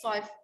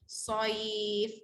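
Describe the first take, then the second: First: The vowel sound is cut short. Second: The vowel sound is held long. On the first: The speaker calls it wrong. "Kalau pendek soif, ha, tak cantik" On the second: The speaker calls it right. "bacaan panjang, mudah sebut"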